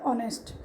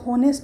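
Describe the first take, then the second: First: The word begins with a vowel sound. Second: The word begins with an h sound. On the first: The speaker calls it right. "Sound में हम क्या लेते हैं, ऑनेस्ट" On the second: The speaker calls it wrong. "है अगर आए तो होनेस्ट, but होनेस्ट तो नहीं बोलते"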